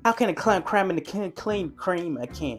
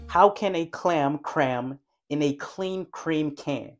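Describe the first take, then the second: First: The sentence is said fast and unclearly. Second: The sentence is said slowly and clearly. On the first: The speaker calls it wrong. "You see how stupid I sound trying to say it fast?" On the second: The speaker calls it right. "How more clear that sounds when I force myself to speak more slowly?"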